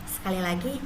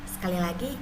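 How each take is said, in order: Both takes have the same delivery.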